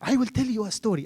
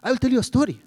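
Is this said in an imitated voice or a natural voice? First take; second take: natural; imitated. First: It is said in the speaker's ordinary voice. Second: It is said in an imitated, put-on voice.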